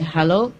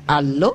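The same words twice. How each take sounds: First: The word starts with a clear H sound. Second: The word starts without any H sound. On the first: This is the English way of saying it. "we say" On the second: This is the French way of saying it. "They say, ... they also don't pronounce the H"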